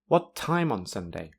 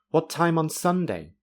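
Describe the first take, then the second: First: The word time carries the main stress. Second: The word Sunday carries the main stress. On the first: The speaker calls it right. "time is now the most important word" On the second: The speaker calls it wrong. "It would be strange to say"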